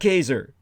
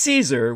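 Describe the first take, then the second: First: It is said with the classical Latin pronunciation. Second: It is said with the English pronunciation. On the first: The speaker calls it right. "the correct pronunciation in the Latin" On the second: The speaker calls it wrong. "not Caesar, which is an Anglo corruption"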